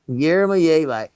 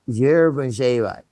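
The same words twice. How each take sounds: First: The word begins with a plain Y sound. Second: The word begins with a slight J sound. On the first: "it's Yermolyevi" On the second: "with a little bit of the sound of the J"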